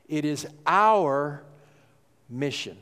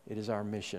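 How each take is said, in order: First: Slow, "our" pressed hard, pause before "mission"; stress on our. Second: Dropped to a much softer "It is our mission". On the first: Shown as a demonstration. Pastor hammering "our" home to his church, slow and deliberate. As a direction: hold on "our", then drop to "mission". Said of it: "I've tried to emphasize the word "we". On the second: Real, not acted. Pastor repeating the point to the church, much softer. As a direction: let it fall away, much softer. Restated softly after emphatic take.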